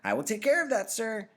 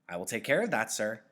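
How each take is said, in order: First: It is said in a cruel, sarcastic tone. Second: It is said in a polite, neutral tone.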